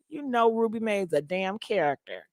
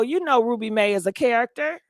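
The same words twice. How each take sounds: First: Softer insistence, dropping at the end; emphatic repeat. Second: Said in the usual way. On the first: Real, not acted. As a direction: say it quieter, with a falling finish. Repeats line, dropping and adding damn.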